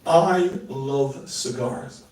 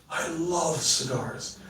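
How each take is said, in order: First: Slow, drawn-out I love cigars; slow demo. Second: Slow and much softer, love leaned on; softer take. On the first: Showing the audience a line, slow and drawn out. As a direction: savour each word slowly. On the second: Second take for the audience, slow and hushed. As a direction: let it drop to a hush. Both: Shown as a demonstration. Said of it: "Watch this".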